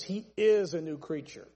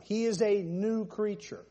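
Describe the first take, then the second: First: Firm, stretched "is" in mid-sentence; all the weight on "is"; stress on IS. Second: Weight on "a new", not on "is"; deliberate emphasis on "new creature"; stress on "new creature". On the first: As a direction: punch "is", with "a new creature" falling away. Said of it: "That's my emphasis". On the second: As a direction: draw out "a" before "new creature". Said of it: "That's my emphasis this time". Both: Shown as a demonstration.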